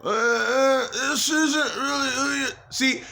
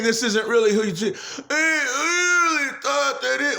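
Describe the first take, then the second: First: Mildly raised imitation of the voices in his head; imitating the noises. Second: A half-laughing, half-crying distorted take on the voice; crying mock voice. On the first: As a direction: lightly voice the intruding noise. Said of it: "the noises that you guys can hear". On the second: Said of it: "and now they're saying".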